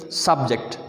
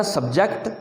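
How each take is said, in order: First: subject as "SUB-ject", the noun; stressed open sub, light ject in subject; stress on first syllable. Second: subject as "sub-JECT", the verb; weak sub, stressed ject in subject; stress on second syllable. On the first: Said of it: "stress पहले हिस्से पे रख के". (Subject में पहले हिस्से पे stress) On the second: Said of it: "तो ये वर्ब बना था". (सब्जेक्ट में दूसरे हिस्से पे stress) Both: Shown as a demonstration.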